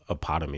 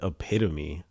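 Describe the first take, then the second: First: The second syllable sounds like 'pot'. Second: The second syllable sounds like 'pit'. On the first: The speaker calls it wrong. "I used to say it wrong" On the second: The speaker calls it right. "Is that how you say that word?"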